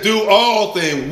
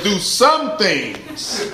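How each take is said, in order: First: "all" held long in "Do all things"; preacher stretching out "all"; stress on ALL. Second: "some" punched, then "things" drawn out and falling; slow, teasing weight on "some"; mock misreading that leans on "some"; stress on SOME. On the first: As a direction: lean slowly on the word "all". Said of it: "It says". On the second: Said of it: "We think it said". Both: Shown as a demonstration.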